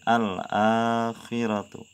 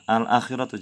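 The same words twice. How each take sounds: First: The vowel after the hamzah is long. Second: The vowel after the hamzah is short. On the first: The speaker calls it right. "tapi al-akhiratu" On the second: The speaker calls it wrong.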